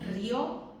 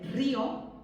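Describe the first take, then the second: First: One syllable with the stress on the o. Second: Two syllables with the stress on the i. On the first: It means someone laughed. "con la fuerza en la O" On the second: It names a river. "en este caso la I lleva tilde"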